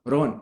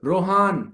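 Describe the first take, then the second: First: The name is said short and quick. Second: The name is stretched out long, angrily. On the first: The speaker calls it wrong. "Rohan Rohan ऐसे बोले गुस्से में नहीं" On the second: The speaker calls it right. "गुस्से में आप हमेशा चीजों को लंबा बोलते हैं"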